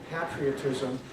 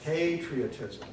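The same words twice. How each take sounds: First: "patriotism" with a short A, as in "pat". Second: "Patriotism" with a drawn-out first syllable, like "pay"; long A in Patriotism. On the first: Retold or imitated. Evaluator imitating the speaker's mistake, patriotism with a short A. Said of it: "not a short A. You were saying patriotism". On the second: Shown as a demonstration. Evaluator modelling the correction, Patriotism with a long first A. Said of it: "Spend a little more time on that first syllable".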